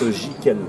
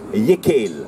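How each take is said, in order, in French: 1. Le nom commence par un son 'zh'. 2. Le nom commence par un son 'y'. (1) "a suivi donc euh, une évolution non pas en breton mais en, en français. C'est pour ça qu'on prononce Jikel" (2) "on le prononce en breton actuellement, on le prononce Yekel"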